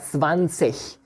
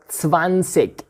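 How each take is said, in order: First: The ending sounds like a soft 'ich'. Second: The ending sounds like a hard 'ik'.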